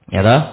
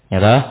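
Both takes have the same delivery.

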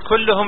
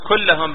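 First: The vowel after the double L is u. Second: The vowel after the double L is a. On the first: The word is in the nominative case. "إن قلت كلهم ليش؟" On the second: The word is in the accusative case. "بالنصب"

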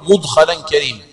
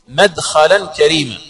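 First: The first vowel is a short 'u'. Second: The first vowel is a short 'a'. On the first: It means the act of being made to enter. "بضم الميم" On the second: It means the place of entering. "هكذا جاء في قراءة نافع وأبي جعفر"

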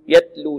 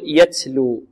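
First: The t has no breath escaping after it. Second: The t is over-breathed with an s-like hiss. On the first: "وكذلك لا نعدم الهمس في التاء" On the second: "لا نبالغ في الهمس أو نشرب التاء هنا رائحة السين أو صوت السين"

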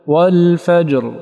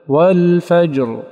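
First: The final r is voiced and held fully. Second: The same.

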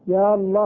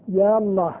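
The two takes are said the same way.

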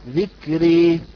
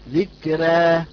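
First: The final vowel leans fully toward e. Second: The final vowel is between a and e. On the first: "وبالإمالة" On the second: "أما بالتقليل"

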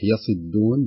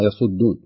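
First: The vowel after the s is 'i'. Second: The vowel after the s is not 'i'. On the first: The speaker calls it right. "صحيح يصدون بكسر الصاد" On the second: The speaker calls it wrong. "بعض الناس يقرأها"

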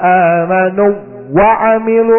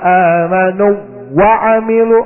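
First: The waw is merged into the next word. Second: The same.

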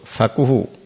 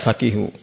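First: The vowel after the q is u. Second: The vowel after the q is i. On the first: "dengan dhommah ini lebih masyhur" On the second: "boleh juga dibaca faqihu"

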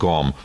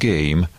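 First: The vowel is a plain short 'a' sound. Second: The vowel is an 'ay' diphthong sound. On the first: It follows the written spelling. The speaker calls it wrong. "gam az az eleje a kifejezésnek, angolul leírva" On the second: It follows the real spoken form. The speaker calls it right. "na de ejtve ez game"

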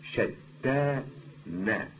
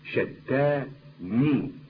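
First: The word ends with the vowel a. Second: The word ends with the vowel i. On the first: This is the common form. "الشائع أنها بالفتح" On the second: This is the less common form. "غير الشائع شتاني بكسر النون"

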